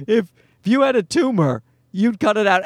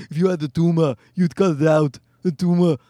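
First: Said in the usual way. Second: Mock Austrian accent; Schwarzenegger. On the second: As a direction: put on a thick Austrian accent, dropping the final r's. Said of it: "Schwarzenegger wanted to have a viral video where he's going".

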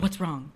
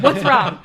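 First: Said in the usual way. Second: Loud, high alarmed cry; mock alarm. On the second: Imitating colleague as she picks up the phone, alarmed. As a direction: blurt it in hammed-up panic.

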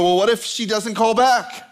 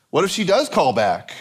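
First: Higher-pitched worried "what if she doesn't call back"; mock freaking out. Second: "does" punched against the opposite worry; stress on DOES. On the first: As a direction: fret theatrically over "doesn't call back". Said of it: "So we start freaking out". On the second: Acted. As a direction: lean hard on "does". Opposite worry, stressed word flipped.

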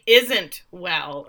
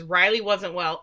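First: Slow, deliberate stress on "isn't"; pointed correction to ISN'T. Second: Said in the usual way. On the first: Retold or imitated. Quoting Father's slip about Riley, pointedly slow on "isn't". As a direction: correct yourself, leaning hard on "isn't". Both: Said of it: "I mean, isn't well".

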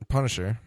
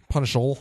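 First: Said in the usual way. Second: Punisher with an L ending, higher; altered name ending. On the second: Shown as a demonstration. Says the name a different way.

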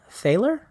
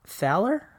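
First: "Thaler" with a long A as in pale, questioning. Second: "Thaler" with a short A as in pal, questioning. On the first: Host retrying co-writer's name, long-A "Thaler". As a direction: try "Thaler" rhyming with sailor, rising. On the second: Host unsure of co-writer's name, short-A "Thaler". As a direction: try "Thaler" with the flat A of pal, rising. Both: Real, not acted. Tries two pronunciations of a name.

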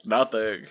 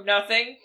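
First: A lower, gruffer "Nothing"; mock-deep voice, half laughing. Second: A slightly lower, gruff pretend "Nothing"; deep voice. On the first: Friend repeating the bluff to guards, with a lower voice. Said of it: "Can I try it again?". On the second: Player bluffing a guard who shouts from the bathroom, lightly deepened voice. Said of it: "putting on a deep voice".

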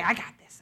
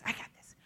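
First: Said in the usual way. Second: Whispered under her breath; a secretive whisper to herself; hushed, voiceless. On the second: Retold or imitated. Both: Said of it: "And I would say".

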